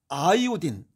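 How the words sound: It ends with an 'eye-o-deen' sound. "아이오딘은 영국식 발음이고"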